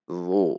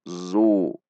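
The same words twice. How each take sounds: First: It starts with a tense, emphatic dh sound. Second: It starts with a plain z sound. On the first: The speaker calls it right. "Namun dibaca zu. Dengan menegangkan pangkal lidah" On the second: The speaker calls it wrong. "Itu dengan zai namanya"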